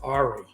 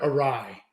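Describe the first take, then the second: First: It ends with an 'ee' sound. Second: It ends with a 'rye' sound. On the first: The speaker calls it wrong. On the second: The speaker calls it right.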